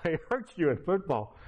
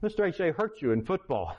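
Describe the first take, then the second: First: Laughing repeat. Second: Said in the usual way. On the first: Retold or imitated. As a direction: say it again through a light laugh.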